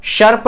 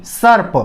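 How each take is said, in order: First: "सर्प" said as sharp, with sh; wrong pronunciation. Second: "सर्प" said as sarp, with s; correct pronunciation. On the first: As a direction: swap the first s of "सर्प" for sh. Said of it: "श बोलोगे तो दूसरा हो जाएगा". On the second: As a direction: begin "सर्प" on a clean dental s. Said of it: "ये ऐसे बोलते हैं इसको". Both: Shown as a demonstration.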